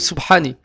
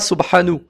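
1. Le mot se termine par la voyelle i. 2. Le mot se termine par la voyelle u. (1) "ou Subhani, avec la kasra ni avec la dhamma" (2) "On ne dira pas Subhanu"

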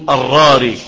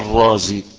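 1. يُنطق الاسم بصوت r مرتين. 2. يُنطق الاسم بصوت z. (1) "فيصعب النطق تقول الراري" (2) "لا الرازي. واصلة كده"

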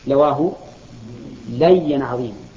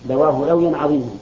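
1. الكلمة الثانية فيها ياء مشددة: layyan. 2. الكلمة الثانية فيها صوت الواو: lawyan. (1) "والصواب" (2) "العامية لا نقول لا نقول لوي"

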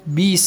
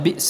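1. الهمزة تُبدَل بحركة. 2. الهمزة في الوسط تُنطق بوضوح. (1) "بيس الاسم الفسوق، هذا إبدال" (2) "عوض بئس الاسم الفسوق"

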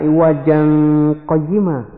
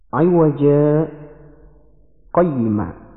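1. Kata-katanya menyambung tanpa jeda. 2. Ada jeda singkat sebelum kata terakhir. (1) "seperti hukum aslinya" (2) "Di situ ada bacaan sakta"

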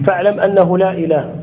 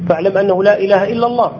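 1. تنتهي العبارة بوقف تام بعد "إله". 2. تمتد العبارة بعد "إله" دون توقف.

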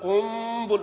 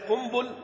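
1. الصوت الأنفي في وسط الكلمة ممطوط. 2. الصوت الأنفي في وسط الكلمة قصير. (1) "صارت قنبل" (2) "بدل ما هي قنبل"

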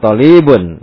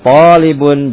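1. Suku kata kedua punya vokal panjang. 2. Suku kata pertama punya vokal panjang. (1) "jangan talibun. Lamnya jadi ditarik gitu, jadi akhirnya panjang" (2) "Jadi yang panjang itu to-nya"

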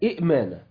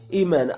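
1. تبدأ الكلمة بهمزتين. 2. تبدأ الكلمة بمدّ طويل وهمزة واحدة فقط.

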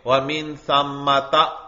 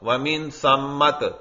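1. لفظ کا آخر پورے 'ta' پر ہوتا ہے۔ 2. لفظ کا آخر ساکن 't' کی آواز پر ہوتا ہے۔ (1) "اس پر بھی زبر پڑتے ہیں" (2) "حالت وقف میں پھر تا کو ساکن کر دیں گے"

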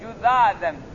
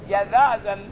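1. الحركة الأولى هي u. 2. الحركة الأولى هي a. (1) "قرأ بعض القراء بالذم" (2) "قراءة بالفتح"

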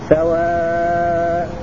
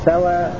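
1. تُمد الحركة الأخيرة مدًّا متوسطًا. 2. تُقصر الحركة الأخيرة بلا همز. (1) "والتوسط" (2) "الإسقاط مع القصر"

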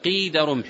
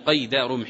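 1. الكلمة الأولى فيها حركة 'ee'. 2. الكلمة الأولى فيها حركة 'ay'. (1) "وإنما يقال قيد رمح" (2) "وأما قيد بالفتح لا يطلق، لا يقال هنا قيد رمح"

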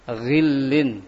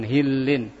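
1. Kata ini diawali dengan bunyi gh yang gutural. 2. Kata ini diawali dengan bunyi h biasa yang berdesah. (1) "ghi, ghillin" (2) "bukan hillin"

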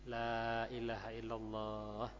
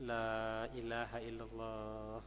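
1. Diucapkan dengan pelan dan tenang. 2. Diucapkan dengan pelan dan tenang.

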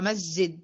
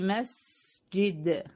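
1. يُقطع صوت s قصيرًا. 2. يُمَدّ صوت s مدّه الكامل. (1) "لو انا ما اديتش السين زمانها تبقى مسجد" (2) "خلصها واديها زمن زي مسجد"

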